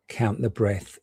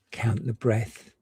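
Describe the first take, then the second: No difference in how they are said.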